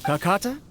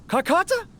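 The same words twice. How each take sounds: First: Said in the usual way. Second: Higher rising call. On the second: Acted. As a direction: call out to find it. Calling out for lost creature.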